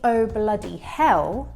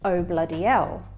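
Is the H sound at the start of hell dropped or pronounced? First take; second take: pronounced; dropped. First: The H at the start of hell is pronounced. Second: The H at the start of hell is dropped. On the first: "instead of saying" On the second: "people do not pronounce that first H sound"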